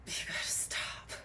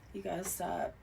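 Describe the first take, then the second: First: Hushed, amused scold; laughing whisper. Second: Said in the usual way. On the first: Real, not acted. Reader telling viewers to stop stealing, whispered with a laugh. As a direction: repeat "You gotta stop" in a whispered chuckle.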